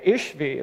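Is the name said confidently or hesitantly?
confidently. The name is said firmly and confidently. The reader seems to know the pronunciation. The speaker calls it right. "they'll go, "Oh, that's how it goes.""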